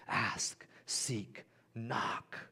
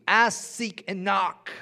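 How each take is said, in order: First: Softer, whispered words; hushed whisper. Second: Much higher, louder proclamation; emphatic call. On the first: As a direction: whisper each word slowly. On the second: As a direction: proclaim each word to the crowd. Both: Shown as a demonstration. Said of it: "preacher repeats the verse".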